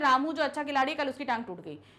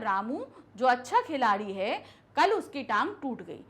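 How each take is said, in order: First: It runs straight through without any pauses. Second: It has short pauses after Ramu and है. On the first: The speaker calls it wrong. "एकदम से हम फर्राटेदार पूरा नहीं बोलते" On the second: The speaker calls it right. "आप ऐसे तो बोलोगे ना"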